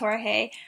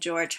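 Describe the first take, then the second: First: The name is said the Spanish way. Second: The name is said the English way. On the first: The speaker calls it right. "pronounced Jorge" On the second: The speaker calls it wrong. "you're saying the name wrong"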